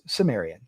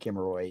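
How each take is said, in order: First: The word begins with a soft S sound. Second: The word begins with a hard K sound. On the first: This is how an English speaker says it. "if you speak English, it's Sumerian" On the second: This is how a German speaker says it. "if you're German, it would be Kimmeroy"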